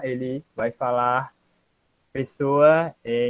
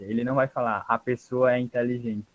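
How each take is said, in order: First: "ele vai falar pessoa é" with halting pause before "pessoa"; slow, broken "falar... pessoa é" like a learner; article dropped. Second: Said in the usual way. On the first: Shown as a demonstration.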